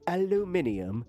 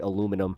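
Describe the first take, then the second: First: It is said with a British pronunciation. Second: It is said with an American pronunciation. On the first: "the British pronunciation. ... they're like aluminium" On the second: "how we say aluminum"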